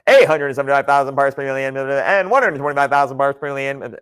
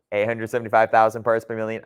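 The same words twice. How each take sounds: First: Said in the usual way. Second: Fast auctioneer rattle; auctioneer patter. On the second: Real, not acted. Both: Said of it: "I sound like an auctioneer".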